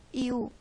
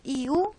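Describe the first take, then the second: First: Y u, cerrado con tono descendente; y u, terminando hacia abajo, firme; falling tune. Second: Y u con subida al final y algo más fuerte; y u, como pregunta, tono ascendente; rising tune. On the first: (y u con entonación descendente) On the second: (y u con entonación ascendente) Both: Shown as a demonstration. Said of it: "Esto puede dar lugar a un diptongo".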